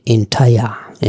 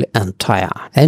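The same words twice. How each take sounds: First: Entire said slowly as in-tai-ar; correct pronunciation, slowly. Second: Entire said the common wrong way; wrong pronunciation shown. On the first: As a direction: entire drawn out with a long ai. (ধীরে সঠিক উচ্চারণ entire) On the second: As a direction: entire as usually mispronounced. (ভুল উচ্চারণ entire) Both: Shown as a demonstration. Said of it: "entire উচ্চারণটা একটু আলাদা".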